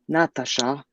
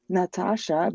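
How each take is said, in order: First: A native-language accent, rolled like the mother tongue. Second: A standard accent with plain A vowels throughout. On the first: "most accurately, like rolled from my mother's tongue" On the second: "no, it's Natasha"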